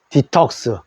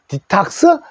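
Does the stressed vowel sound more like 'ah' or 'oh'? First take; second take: oh; ah. First: The stressed vowel sounds like 'oh'. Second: The stressed vowel sounds like 'ah'. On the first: "옥스 발음을 해서 디톡스" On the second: "디탁스 해도 됩니다"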